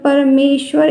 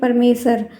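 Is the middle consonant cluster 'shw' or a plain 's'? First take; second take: shw; plain s. First: The middle is pronounced with a full 'shw' cluster. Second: The middle is pronounced with a plain 's' sound. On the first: The speaker calls it right. "परमेश्वर इस तरीके से" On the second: The speaker calls it wrong. "ना कि परमेसर"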